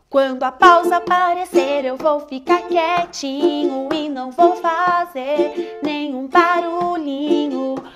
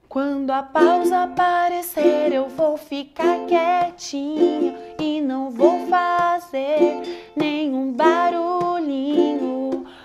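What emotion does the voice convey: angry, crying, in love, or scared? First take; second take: angry; scared. First: The voice sounds harsh and angry. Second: The voice sounds frightened and startled. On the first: "Muito bravo"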